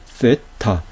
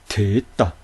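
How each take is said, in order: First: The word begins with a soft 'th' sound. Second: The word begins with a 't' sound. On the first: This follows the later scholarly convention. "대부분의 사람들은 이 됐다를 쓰로 발음하죠" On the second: This follows the original Greek pronunciation. "트! 라고 발음되니 됐다"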